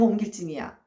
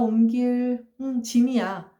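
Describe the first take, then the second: First: Said in one breath with a tense first consonant. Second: A pause comes before a plain first consonant.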